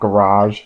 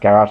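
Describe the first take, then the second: First: It is said with a non-Australian pronunciation. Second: It is said with an Australian pronunciation. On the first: "not garage" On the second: "how we pronounce garage here in Australia"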